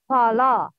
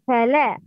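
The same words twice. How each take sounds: First: The la syllable is heavy and full. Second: The la syllable is light and thin. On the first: The speaker calls it wrong. "not fala" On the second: The speaker calls it right. "it's fala, light"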